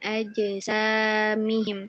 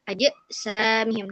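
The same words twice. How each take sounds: First: The echo is light, with no added glottal catch. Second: The echo is heavy, with an added glottal catch. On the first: The speaker calls it right. "Dia mematunya ringan. Aja samihim seperti itu" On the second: The speaker calls it wrong. "terdengar ada penambahan huruf hamzah gitu ya. Seperti aja samihim. Nah, itu tidak boleh"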